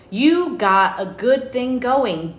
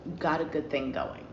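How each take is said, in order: First: Slow, weighty, every word of "You got a good thing going" pressed; slow emphatic. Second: "You got a good thing going" dropped low and much softer; soft repeat. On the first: Reader warning Cancer not to ruin it, slow and emphatic. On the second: Reader quietly repeating her advice to Cancer, soft and low. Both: Shown as a demonstration. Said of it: "Don't ruin that shit".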